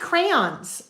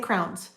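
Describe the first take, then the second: First: The word is said carefully with two syllables. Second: The word is squeezed into one syllable. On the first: "I probably enunciate some words a little bit more when I'm doing this" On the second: "I probably in real life say crowns"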